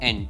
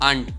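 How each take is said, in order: First: The vowel is a short 'a' like ant. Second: The vowel is a long open 'ah'. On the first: This is the American pronunciation. "America વાળા એને એન્ટ બોલે" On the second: This is the British pronunciation. "British English છે"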